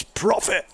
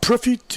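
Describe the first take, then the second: First: Said in the usual way. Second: PROFIT said pro-FEET, French style; French pronunciation. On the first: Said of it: "it's profit". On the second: Shown as a demonstration. Commentator correcting the name, French accent. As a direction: put the French stress on the end of PROFIT. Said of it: "It's not profit".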